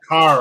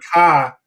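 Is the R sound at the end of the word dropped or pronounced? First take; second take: pronounced; dropped. First: The final R sound is clearly pronounced. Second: The final R sound is dropped. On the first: This is how people from elsewhere say it. "you always say car" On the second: This is how people from the speaker's own region say it. "I say car"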